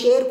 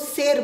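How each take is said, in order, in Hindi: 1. sh ध्वनि पीछे, तालु से बनती है। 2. sh ध्वनि दांतों से बनती है।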